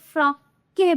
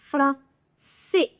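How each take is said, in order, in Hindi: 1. मध्य व्यंजन k की ध्वनि है। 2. मध्य व्यंजन s की ध्वनि है। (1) "सीधे ही बिना बोले तो फ्रॉम के बन जाएगा, विच इज इनकरेक्ट प्रोनाउंसिएशन" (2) "क्यों की जगह स की साउंड आ रही"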